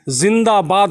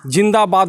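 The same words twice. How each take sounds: First: The word starts with a z sound. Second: The word starts with a j sound. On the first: The speaker calls it right. "ज़ के नीचे बिंदु मतलब कि जिंदाबाद होता है" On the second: The speaker calls it wrong. "नहीं होता है"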